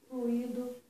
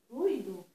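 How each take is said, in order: First: The stress falls on the i sound. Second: The stress falls on the u sound. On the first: The speaker calls it wrong. "que bota a sílaba tônica no I, mas isso é uma inadequação" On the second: The speaker calls it right. "O acento tônico está na letra, no fonema U"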